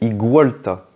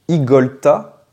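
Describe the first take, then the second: First: The second syllable sounds like 'gwa'. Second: The second syllable sounds like 'go'. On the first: "doit être prononcé Igualta, parce que c'est un iguane" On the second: "Est-ce qu'on doit le prononcer Igolta ou Igualta?"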